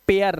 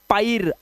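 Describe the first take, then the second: First: "पेयर", AIR sounded as "e-yar"; correct pair vowel. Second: "पायर", AI wrongly sounded as "aai"; wrong pair vowel. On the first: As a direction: say "पेयर" with an "ay-aa" glide. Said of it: "इसे पढ़ते हैं पेयर". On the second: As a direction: say "पायर" with an "aa-i" glide. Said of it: "ना कि इसे पायर". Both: Shown as a demonstration.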